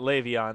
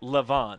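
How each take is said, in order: First: The name is said as Le'Veon. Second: The name is said as Levon. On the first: The speaker calls it wrong. "not Le'Veon. That's that's uh, like the Steelers running back" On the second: The speaker calls it right. "It's Levon"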